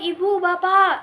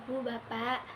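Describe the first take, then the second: First: It is spoken loudly, almost shouted. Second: It is spoken quietly, at low volume. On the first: It sounds rude to the listeners. "kalau misalnya kita ngomong dengan nada, woi" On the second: People at the back cannot hear it. "kalau yang belakang nggak akan dengar"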